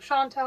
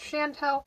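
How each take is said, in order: First: The last syllable has an 'ah' vowel. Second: The last syllable has an 'eh' vowel. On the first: The speaker calls it wrong. "I was pronouncing her name wrong. I was saying Chantal" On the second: The speaker calls it right. "her name was pronounced Chantel"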